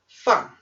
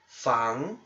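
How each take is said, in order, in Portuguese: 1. É dito com o quarto tom. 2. É dito com o segundo tom. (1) "quarto tom" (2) "é o segundo tom"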